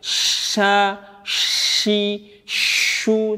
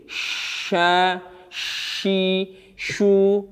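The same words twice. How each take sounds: First: The sh breath is heavy, pushed out strongly. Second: The sh breath is light, kept inside the mouth. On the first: The speaker calls it wrong. "itu berlebihan" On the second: The speaker calls it right. "itu cara pengucapan nafas huruf shin"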